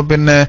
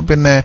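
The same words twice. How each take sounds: Both takes have the same delivery.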